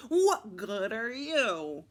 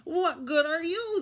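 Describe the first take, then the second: First: Slow, grumpy challenge; drawn-out sour question; glowering question. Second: High, loud parrot mimicry; parrot echo. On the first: Grumpy pirate challenging his new parrot, glowering. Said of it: "Gus glowers ... and he asks". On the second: Parrot mimicking the grumpy pirate, echoing high and loud. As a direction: squawk the question back in a raised voice. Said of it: "the parrot asks back". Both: A narrator's reading.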